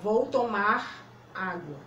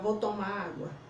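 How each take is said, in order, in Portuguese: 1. O R final de 'tomar' é claramente pronunciado. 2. O R final de 'tomar' é omitido. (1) "A gente tem que falar" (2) "Se você não falar abrindo bem a boca e saindo o som"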